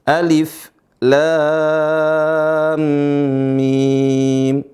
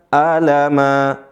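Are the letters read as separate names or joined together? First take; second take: separate names; joined. First: Each letter is said by its full name. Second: The letters are blended into one joined word. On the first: The speaker calls it right. "Huruf dengan bacaan terputus" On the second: The speaker calls it wrong. "Bukan dibaca bersambung, bukan dibaca alama"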